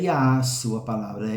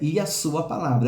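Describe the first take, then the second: First: The 'a' vowel is drawn out long. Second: The 'a' vowel is said once, short. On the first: The speaker calls it wrong. "não tem que prolongar o A porque ele está craseado" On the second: The speaker calls it right. "é um A só"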